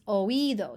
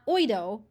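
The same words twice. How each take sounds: First: The two vowels are said as separate syllables. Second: The two vowels run together in one syllable. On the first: The speaker calls it right. "So you put the accent on there" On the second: The speaker calls it wrong. "It's not"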